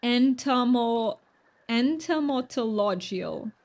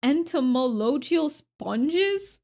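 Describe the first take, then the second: First: Slow "entomological", one syllable at a time, rising at the end; careful pronunciation. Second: Slow, puzzled, careful "Entomological sponges?"; sounding out a word. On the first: Streamer tries the hard word once more, slowly and carefully. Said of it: "what does that word mean". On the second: Streamer reads a strange chat word aloud slowly. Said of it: "what is that word". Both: Real, not acted.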